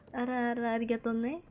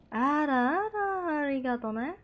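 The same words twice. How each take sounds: First: Said in the usual way. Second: Slow drawn-out. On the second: Shown as a demonstration. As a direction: stretch Arah-arah very slowly, then arigato ne. Same phrase drawn out. (pelan dan diseret)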